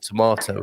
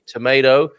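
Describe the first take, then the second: First: The middle vowel sounds like 'ah'. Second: The middle vowel sounds like 'ay'.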